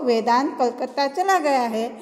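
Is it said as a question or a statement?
statement. It is said as a statement, ending flat. It reports that the person has gone. "अंत में पूर्ण विराम"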